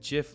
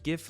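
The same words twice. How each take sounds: First: It starts with a soft J sound. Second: It starts with a hard G sound. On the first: "like Jiffy" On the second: "like a gift"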